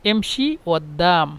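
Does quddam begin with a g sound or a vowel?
vowel. The word quddam begins with a vowel. "মিশরের আঞ্চলিক হলো এমশি ওদ্দাম"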